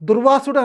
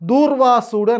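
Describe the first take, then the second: First: The first vowel is short. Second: The first vowel is long. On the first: The speaker calls it wrong. "దుర్వాసుడు అనద్దురా నాయన" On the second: The speaker calls it right. "దూర్వాసుడు అనాలని"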